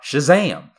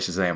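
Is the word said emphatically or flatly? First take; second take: emphatically; flatly. First: The word is said with strong emphasis. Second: The word is said plainly without emphasis. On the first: The speaker calls it right. "you have to say it with emphasis because the title has an exclamation point" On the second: The speaker calls it wrong. "you already didn't emphasize it that time"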